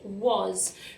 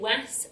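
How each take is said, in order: First: The vowel sounds like the 'o' in 'oz'. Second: The vowel sounds like the 'a' in 'as'. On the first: The speaker calls it right. "we say was ... making a kind of oz, oz sound" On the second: The speaker calls it wrong. "our sounds are w, as, was, but we don't say was"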